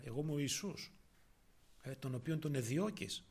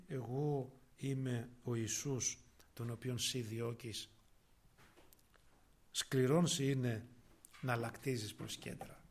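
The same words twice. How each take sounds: First: Said in the usual way. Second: Solemn voice of Jesus. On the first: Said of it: "είναι σκληρό να χτυπάς". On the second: Acted. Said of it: "ο οποίος, λέει, ρωτάει".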